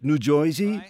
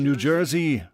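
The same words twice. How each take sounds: First: It is said in a local New Jersey accent. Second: It is said in a neutral American accent.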